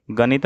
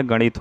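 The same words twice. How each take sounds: First: गणित said as ganit with plain n; tongue on teeth for n in गणित; dental n. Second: गणित with curled-tongue "ṇ"; retroflex n. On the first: Teacher showing the mistake, गणित with plain n. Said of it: "गणित नहीं होता है". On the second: Teacher correcting the word, गणित with retroflex n. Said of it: "गणित होता है". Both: Shown as a demonstration.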